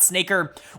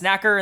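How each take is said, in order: First: The vowel is a long 'ay' as in 'snake'. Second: The vowel is a short 'a' as in 'snack'. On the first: The speaker calls it wrong. "and not Snaker" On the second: The speaker calls it right. "Apparently, it's Snacker"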